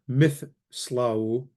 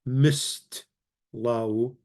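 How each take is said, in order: First: It has a th sound before the s. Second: It has a plain t after the s. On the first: "So it's not mithslau" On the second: "and it's not mistlau"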